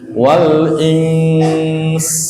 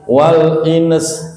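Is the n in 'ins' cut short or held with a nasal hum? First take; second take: nasal hum; cut short. First: The n is held with a nasal hum. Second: The n is cut short without nasal hum. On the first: The speaker calls it right. "Cara wakafnya begitu ya" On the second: The speaker calls it wrong. "Jangan begini. ... Ikhfa-nya nggak boleh hilang"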